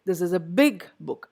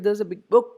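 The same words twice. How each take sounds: First: The adjective big is clearly stressed. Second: The adjective big is not stressed. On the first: The speaker calls it right. "Both get stress" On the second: The speaker calls it wrong. "You don't say this is a big book"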